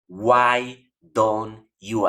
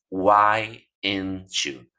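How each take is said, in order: First: Each word is pronounced fully and separately. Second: The three words blur into one reduced chunk. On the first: "una pronunciación completa de cada una de las palabras" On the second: "las reducen simplemente a esto"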